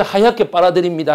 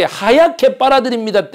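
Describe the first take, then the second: First: Said in the usual way. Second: 하얗게 빨아들입니다 pitched higher like a jingle; ad slogan read. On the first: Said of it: "그래서". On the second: Shown as a demonstration. Pitching the detergent's ad line, read out higher. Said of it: "처음에 그래서 어떻게".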